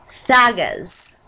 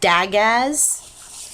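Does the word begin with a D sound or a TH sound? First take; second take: TH; D. First: The word begins with a TH sound. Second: The word begins with a D sound. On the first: The speaker calls it right. "it's Thagaz. Did not know that" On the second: The speaker calls it wrong. "which is how I've always pronounced it"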